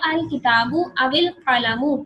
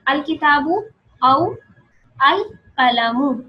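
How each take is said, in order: First: The words are joined with an added i vowel. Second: The words are said separately, without linking. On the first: "वाव को जेड दिया और आगे से मिलाया" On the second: "अभी मैं मिला नहीं रही"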